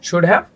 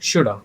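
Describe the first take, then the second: First: Both words are said fully and separately. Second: The have is reduced to a short uh sound. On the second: "it will be shoulda"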